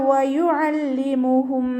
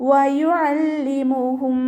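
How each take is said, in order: The two takes are said the same way.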